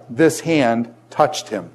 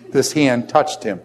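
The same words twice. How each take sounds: First: "This" hit hard, slow and drawn out; this hand, with "This" landing heavy and slow; stress on this. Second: "hand" carries the weight, a bit slow; this hand, with "hand" as the key word; stress on hand. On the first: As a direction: lean on "This" and take the whole line slowly. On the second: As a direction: shift the punch onto "hand". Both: Shown as a demonstration. Repeats line, stressing different word.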